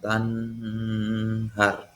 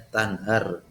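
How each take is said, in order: First: The n is held and blurred, not crisp. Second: The n is short, quick and clearly pronounced. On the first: The speaker calls it wrong. "bukan tanhar. Itu enggak" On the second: The speaker calls it right. "Jadi cepat ya. Tanhar jelas"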